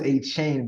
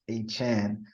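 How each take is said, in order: First: The second syllable sounds like 'chain'. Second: The second syllable sounds like 'chan'. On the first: The speaker calls it wrong. "we thought it was a chain" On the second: The speaker calls it right. "but it's a Chan"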